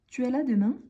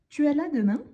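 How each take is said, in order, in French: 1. Les mots 'tu es' se disent en entier. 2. Les mots 'tu es' se disent en entier.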